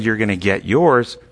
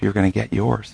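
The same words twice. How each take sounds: First: It is said in a vengeful, spiteful tone. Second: It is said in a sad, grieving tone. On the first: The speaker wants the person to be punished. The speaker calls it wrong. "in this vengeful way" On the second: The speaker grieves over what will happen. The speaker calls it right. "You say with sadness"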